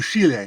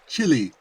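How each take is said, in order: First: The name is said with Spanish sounds. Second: The name is said with American English sounds. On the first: This is how the country's own people say the name. "instead of Chile" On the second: This is how northerners say the name. "norteños pronounce it Chile"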